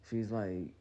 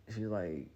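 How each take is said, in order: Both takes have the same delivery.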